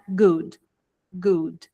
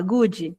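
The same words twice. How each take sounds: First: "good" ends cleanly on the d, no vowel after; clipped final d. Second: "good" said as "gudji" with an added i; Brazilian extra i. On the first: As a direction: cut it short after the d. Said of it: "Você corta". ("good" cortado, sem vogal no final) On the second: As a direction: add the extra i, as a Brazilian would. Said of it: "coloca um i imaginário". ("good" com i imaginário no final) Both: Shown as a demonstration.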